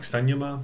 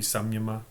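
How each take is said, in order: First: The consonant before the 'y' is an N. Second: The consonant before the 'y' is an M. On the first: "I used to say it as an N" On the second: "It might be samyama"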